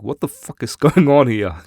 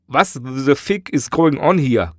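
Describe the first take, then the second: First: It is said in the speaker's ordinary accent. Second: It is said in a German accent. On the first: The speaker calls it wrong. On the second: The speaker calls it right.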